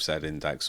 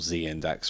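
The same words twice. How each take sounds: First: The letter is pronounced zed. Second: The letter is pronounced zee. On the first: This is the British way of saying it. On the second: This is the American way of saying it.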